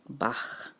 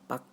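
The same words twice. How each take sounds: First: The word ends with a soft, breathy sound. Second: The word ends with a hard k sound. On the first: The speaker calls it right. "pronounce it with a little softer ending" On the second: The speaker calls it wrong. "the sound of a chicken"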